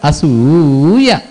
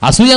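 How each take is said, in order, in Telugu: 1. ఈ పదంలో ఒక అచ్చు దీర్ఘంగా సాగుతుంది. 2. ఈ పదాన్ని చిన్నగా, సాదాగా అంటారు. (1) "ఆ దీర్ఘం పలకడం" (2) "ఉత్తగా చెప్పొచ్చు"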